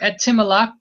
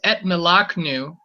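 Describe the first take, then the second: First: An i vowel is heard between the t and m. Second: No vowel is heard between the t and m. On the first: The speaker calls it wrong. "You don't have to say" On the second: The speaker calls it right. "This is why this right here is etmelaknu"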